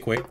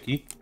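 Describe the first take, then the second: First: It begins with a kw sound. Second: It begins with a plain k sound. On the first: The speaker calls it right. "always say quay" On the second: The speaker calls it wrong. "never say key"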